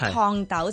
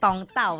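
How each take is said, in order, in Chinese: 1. 第一个词的开头是 T 音。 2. 第一个词的开头是 D 音。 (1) "T 咧就变D 咯" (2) "T 咧就变D 咯，所以烫豆就变咗冻豆啦"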